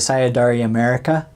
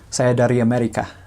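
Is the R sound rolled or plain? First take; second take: plain; rolled. First: The R sounds are not rolled. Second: The R sounds are rolled. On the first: The speaker calls it wrong. "that's a terrible accent" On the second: The speaker calls it right. "rolling the R's"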